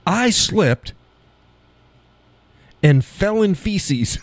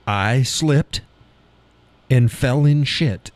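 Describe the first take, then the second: First: High-pitched, deliberate phrasing with FECES drawn out; awkwardly formal demo. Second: Said in the usual way. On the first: Shown as a demonstration. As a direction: show how clumsy "feces" sounds, pitched high and slow. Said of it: "doesn't even roll off the tongue". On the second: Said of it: "Nobody says I sh-, slipped and fell in feces".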